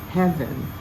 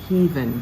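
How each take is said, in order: First: The first vowel sounds like in 'bread'. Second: The first vowel sounds like in 'read'. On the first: The speaker calls it right. "The same as in bread" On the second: The speaker calls it wrong. "Sounds so much like E A in read"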